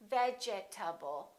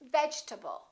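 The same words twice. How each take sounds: First: The word is said with four syllables. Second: The word is said with three syllables. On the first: The speaker calls it wrong. "We don't say vegetable" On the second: The speaker calls it right. "This E disappears, and this A is reduced"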